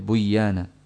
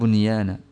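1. Bunyi n menyatu ke dalam y. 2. Bunyi n jelas tetap dipertahankan sebelum y. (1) "tidak buyana" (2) "Jadi bunyana"

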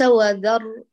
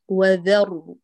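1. صوت dh ثقيل وغليظ. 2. صوت dh خفيف ورفيع.

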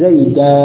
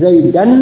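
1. Kata itu berakhir dengan a panjang. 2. Kata itu berakhir dengan bunyi n. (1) "tanwinnya diganti dengan alif" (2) "asalnya sesuai dengan kaidah i'rab"

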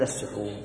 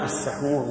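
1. المقطع الأول فيه الحركة 'u'. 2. المقطع الأول فيه الحركة 'a'. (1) "بالضم" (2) "بالفتح"

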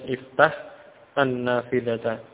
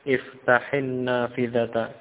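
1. Kedua kata itu diucapkan terpisah, masing-masing secara lengkap. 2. Kedua kata itu disambung dengan vokal penghubung. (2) "dihubungkan atau disambung dalam mengucapkan"

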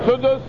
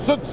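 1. يتبع الحرف الأوسط u. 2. الحرف الأوسط بلا حركة.

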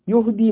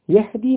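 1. الحركة الأولى صوت 'u'. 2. الحركة الأولى صوت 'a'. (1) "يهدي من الهدية" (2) "يهدي من الهداية"

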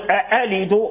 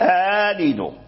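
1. الهمزة الثانية همزة قطع كاملة. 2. الهمزة الثانية تصير حرف مد. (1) "بدل ما يقول" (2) "فأبدل الهمزة الثانية"

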